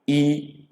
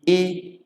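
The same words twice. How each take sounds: First: Long "ee" on a raised tone; undotted I as "ee". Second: Lighter I sound, pitched high; dotted I, lighter. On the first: Igbo teacher contrasting two I's, undotted "ee". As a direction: hold the undotted I as "ee". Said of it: "So we have two I". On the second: Igbo teacher contrasting two I's, lighter dotted I. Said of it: "this one is A lighter". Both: Shown as a demonstration.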